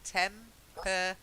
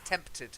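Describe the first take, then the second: First: An extra vowel is inserted in the middle. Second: No extra vowel is inserted in the middle. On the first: The speaker calls it wrong. "You're putting an e in. You're saying tempered" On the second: The speaker calls it right. "It's not. It's tempted"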